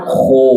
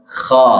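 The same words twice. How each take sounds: First: Kho with rounded, pouting o; pouted lips. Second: Kha with a wide-open, unrounded vowel; open mouth. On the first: Teacher showing what to avoid, pouted kho. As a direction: push the lips forward on "kho". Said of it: "Tidak mo-, tidak monyong ya". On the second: Teacher modelling the correct letter, open-mouthed Kha. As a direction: drop the jaw fully on "Kha". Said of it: "Buka mulut dengan sempurna". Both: Shown as a demonstration.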